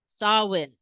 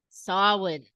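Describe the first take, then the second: The two takes are said the same way.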